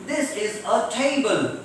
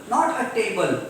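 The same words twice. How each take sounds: First: "table" with a puff of air on the t; aspirated t. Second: "table" with an unaspirated Indian t. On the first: Teacher modelling British English, aspirated t. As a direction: breathe out on the t of "table". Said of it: "It should be table". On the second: Teacher showing Indian English, unaspirated t. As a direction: say "table" with no air after the t. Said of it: "Table is Indian English". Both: Shown as a demonstration.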